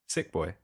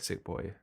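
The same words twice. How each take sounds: First: Boy is said quickly with a slight final glide. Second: Boy ends with a clearly drawn-out y glide. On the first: This is the speaker's own way of saying it. "you say boy as if it's uh, B O I" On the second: This is how others say it. "they they uh, pronounce the Y a little bit more"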